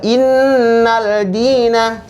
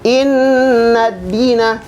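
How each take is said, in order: First: An l sound is heard before dina. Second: No l sound; it joins straight into d. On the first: The speaker calls it wrong. "Bukan dibaca innal dina, salah" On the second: The speaker calls it right. "Tapi dibaca inna dina"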